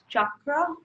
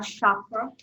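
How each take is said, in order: First: The word begins with a ch sound. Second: The word begins with an sh sound. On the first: The speaker calls it right. "I kind of just want to say it's chakra" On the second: The speaker calls it wrong. "it's C H like choice. It's not sure, it's not chakra"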